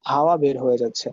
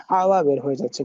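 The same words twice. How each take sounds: First: Said in the usual way. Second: হাওয়া with the h squeezed from the back of the throat; throaty h. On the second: Shown as a demonstration. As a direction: press breath through the throat on the h of হাওয়া. (হাওয়া-র হ গলার গভীর থেকে) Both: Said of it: "খেয়াল করে দেখেন, হা বলছি".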